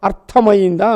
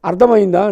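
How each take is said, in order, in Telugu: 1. 'ar' తర్వాత ఉన్న హల్లు అఘోష 'th' ధ్వని. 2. 'ar' తర్వాత ఉన్న హల్లు ఘోష 'dh' ధ్వని. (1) "అర్థమైందా అనాలి" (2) "అర్థమైందా అంటారు"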